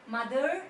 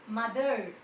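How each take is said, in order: The two takes are said the same way.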